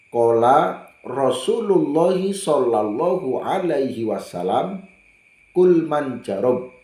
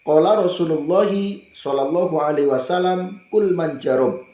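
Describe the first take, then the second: First: The phrase is recited at a slower pace. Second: The phrase is recited at a faster pace.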